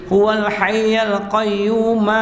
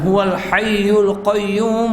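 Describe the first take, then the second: First: The vowel after hayy is an a sound. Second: The vowel after hayy is a u sound. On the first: "iaitu bin nasbin fathah" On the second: "Tidak menjadi masalah untuk baca"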